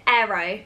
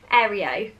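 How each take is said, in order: First: Said in the usual way. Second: AEREO with an extra "ee" before the final O; alternative pronunciation. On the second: Shown as a demonstration. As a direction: try out Aereo as three parts, air-ee-oh, lifting at the end. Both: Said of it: "Is that how you say it?".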